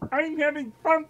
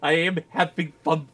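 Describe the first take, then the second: First: It is spoken in a put-on frog-puppet voice. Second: It is spoken in an ordinary natural voice. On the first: The speaker calls it right. "the Kermit the Frog voice" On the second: The speaker calls it wrong. "you gotta do it in the voice"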